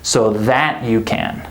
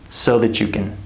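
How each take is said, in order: First: The word that is stressed. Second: The word that is unstressed. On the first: The speaker calls it wrong. "We don't say" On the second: The speaker calls it right. "this word is not stressed"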